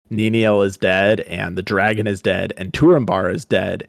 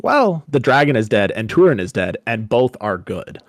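First: Said in the usual way. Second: Gleeful announcement. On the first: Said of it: "he goes and he says". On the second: Retold or imitated. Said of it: "the way he phrases it is like".

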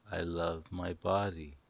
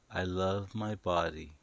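Both takes have the same delivery.

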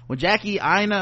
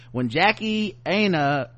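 First: "Aina" said as EYE-nuh; corrected pronunciation. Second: "Aina" said as AY-nuh; first-try pronunciation. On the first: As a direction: start "Aina" with the sound of "eye". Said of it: "oh yeah, it is Aina". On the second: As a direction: say "Aina" with a long A, as in "day". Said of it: "how do you pronounce this". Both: Real, not acted.

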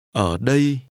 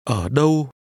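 First: "Ở đây" said carefully as a model; contrasting "here". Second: "Ở đâu" said carefully as a model; contrasting "where". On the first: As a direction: dip on "Ở", then a clear "ay-ee" glide in "đây". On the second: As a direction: dip on "Ở", then a clear rounded glide in "đâu". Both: Shown as a demonstration. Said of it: "Listen and repeat to compare where and here".

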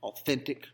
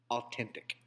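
First: Authentic with a clear th sound; proper th. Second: Authentic said as ah-TEN-tic, with a hard T; silent H. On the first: Naming the restaurant, Authentic with a proper th. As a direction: say Authentic with the th as written. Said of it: "name their establishment". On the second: Reading the misspelled billboard aloud, authentic with a plain T. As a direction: read the sign's authentic with a plain T sound. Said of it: "it says". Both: Shown as a demonstration.

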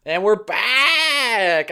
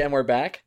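First: Very slow, drawn-out croaky announcer voice; dying turtle voice. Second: Said in the usual way. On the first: Acted. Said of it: "you sound like a dying turtle". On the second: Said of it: "when I say".

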